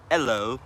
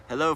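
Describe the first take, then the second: First: Loud London "hello" without the H; London accent, dropped H. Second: Said in the usual way. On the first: Shown as a demonstration. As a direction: imitate a Londoner's H-less "hello". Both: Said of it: "You don't pronounce the H".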